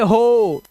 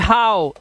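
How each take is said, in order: First: The vowel is an 'oh' sound. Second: The vowel is an 'ow' sound. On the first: The speaker calls it wrong. "ये होना चाहिए हो" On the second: The speaker calls it right. "ऐसे ही हाउ"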